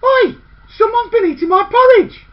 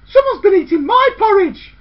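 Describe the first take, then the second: First: Loud, high outraged cry; indignant shout. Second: Indignant middle sister. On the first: Eldest girl finding her porridge gone, shouting indignantly. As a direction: bellow it at the empty bowl. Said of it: "the eldest girl said". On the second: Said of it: "The middlest girl said". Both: A narrator's reading.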